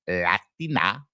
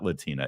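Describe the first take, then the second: First: The word is said with a Spanish accent. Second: The word is said with an English accent. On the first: This is how she actually said the word. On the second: This is how the rest of her speech sounded.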